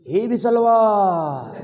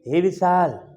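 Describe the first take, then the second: First: The last vowel is stretched out long, calling far. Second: The name ends short, like a normal call.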